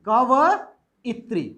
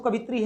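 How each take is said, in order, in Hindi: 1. इसमें चार अक्षर हैं, ka-va-i-tri। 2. इसमें तीन अक्षर हैं, ka-vi-tri। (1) "सही बोलो ना कि कवइत्री" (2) "सर गलत है"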